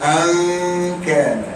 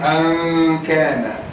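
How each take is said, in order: The two takes are said the same way.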